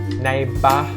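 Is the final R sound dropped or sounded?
dropped. The final R is dropped, ending in a flat vowel. The speaker calls it right. "we don't curl the tongue up to make the R sound"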